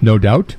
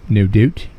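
First: It is said in the speaker's plain accent. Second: It is said in a northern regional accent.

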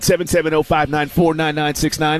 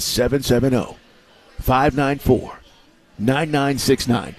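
First: The number is said at normal, quicker speed. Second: The number is said slowly and deliberately.

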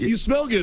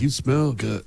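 First: It is said in a plain, friendly tone. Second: It is said in a creepy tone.

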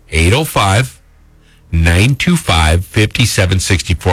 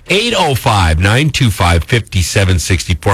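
First: The number is said slowly. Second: The number is said quickly.

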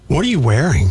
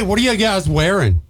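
First: It is asked in a sassy tone. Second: It is asked in a cheery tone.

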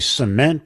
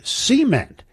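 First: It is said the non-Southern way. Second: It is said the Southern way.

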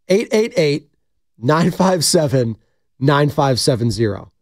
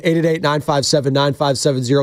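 First: The number is read at a slow pace. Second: The number is read at a fast pace.

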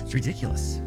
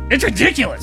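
First: It is said in a surprised way. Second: It is said in an angry way.

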